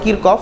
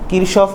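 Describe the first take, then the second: First: It sounds like Kirkof, with a k sound. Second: It sounds like Kirshof, with an sh sound. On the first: This is how Germans say the name. "German ভাষায় ... ওরা বলে কিরকফ" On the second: This is how the name is said in Bengali English. "Bangla ইংলিশে হচ্ছে কিরশফ হয়"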